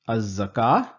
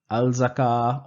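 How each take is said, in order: First: The L sound is dropped and the Z is doubled. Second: The L sound is clearly pronounced before the Z. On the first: The speaker calls it right. "I'm not pronouncing the lam" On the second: The speaker calls it wrong. "I'm not saying"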